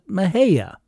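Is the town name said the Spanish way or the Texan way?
Texan. It is said with a local Texan pronunciation. This is how most Texans say the name. "most Texans pronounce it Mejia"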